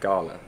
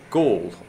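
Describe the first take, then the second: First: It is said with two syllables, local style. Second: It is said as one syllable, English style.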